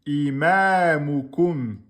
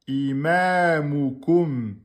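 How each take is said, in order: No difference in how they are said.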